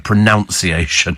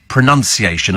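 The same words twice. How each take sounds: First: The second syllable sounds like 'noun'. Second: The second syllable sounds like 'nun'. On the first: The speaker calls it wrong. "as opposed to pronunciation" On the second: The speaker calls it right. "it is pronunciation"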